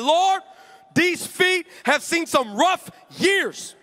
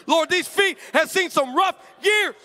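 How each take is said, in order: First: High, slow, laughing prayer over the feet; laughing mock prayer. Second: Mock prayer. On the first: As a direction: pray it half laughing, stretched out. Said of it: "I said". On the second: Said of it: "that's how I started the prayer of faith".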